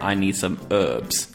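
It is said in an American accent.

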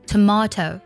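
British accent, middle syllable 'mah', clear t. "再来对比一下英式的发音"

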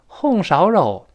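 It is said in Henan dialect. "河南话红烧肉"

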